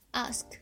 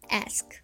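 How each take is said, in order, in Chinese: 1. 元音是长的开口 'ah' 音。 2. 元音是短的扁 'a' 音。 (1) "第一个是长元音啊" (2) "如果这个音后面跟着辅音而且又是美音的话，则要变成a"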